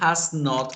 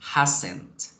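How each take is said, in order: First: It is said as two separate full words. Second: It is said as one contracted word. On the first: "el has not" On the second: "quedaría convertido a hasn't"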